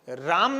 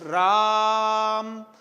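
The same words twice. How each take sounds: First: The vowel is held for a normal length. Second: The vowel is stretched out for a long time. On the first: "राम नहीं बोला" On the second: "दुगुने से भी ज्यादा समय ले लिया हमने बोलने में"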